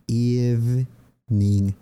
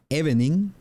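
First: EVENING said slowly as "EEV-ning"; drawn-out EVENING with no middle E; silent middle E. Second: EVENING read as written, "eh-beh-ning"; EVENING in three syllables, Spanish-style vowels; spelling pronunciation. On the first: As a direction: split EVENING in two, EEV, then NING. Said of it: "Se dice evening". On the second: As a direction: sound the middle E in EVENING. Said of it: "la E en el medio no se pronuncia". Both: Shown as a demonstration.

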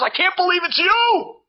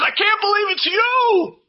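First: High, loud squeal of joy; wife squealing at her old schoolmate, excited; excited shriek. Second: Even higher, loud joyful scream; excited shriek back. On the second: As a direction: kala screaming back at the wife, ecstatic. Kala shrieking back at wife. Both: Retold or imitated.

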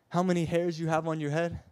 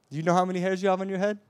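First: Said in the usual way. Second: Urgent, speeded-up repeat; rapid pressing question. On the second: Shown as a demonstration. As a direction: fire it off fast and louder. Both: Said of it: "question asked twice".

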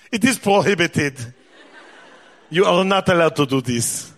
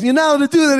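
First: Mock Israeli accent. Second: Put-on high, loud Israeli-accented protest; agitated Israeli son. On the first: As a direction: forbid it word by word in an exaggerated Israeli accent. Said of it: "He doesn't talk like that". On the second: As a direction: cry it out as an outraged Israeli kid. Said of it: "but he's Israeli, you know".

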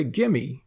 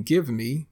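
First: Gimme, with give me run together as one word; Texan gimme. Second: Said in the usual way. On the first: Shown as a demonstration. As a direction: say gimme, clipped and casual like a Texan. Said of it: "We say gimme". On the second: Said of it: "instead of saying give me".

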